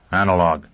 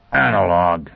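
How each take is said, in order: First: Said in the usual way. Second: Mild exclamation, drawn out; a touch of surprised recognition; exclaimed. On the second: A narrator's reading. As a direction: call out a sudden discovery, mildly. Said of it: "he exclaimed".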